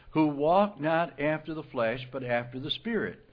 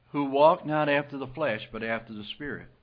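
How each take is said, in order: No difference in how they are said.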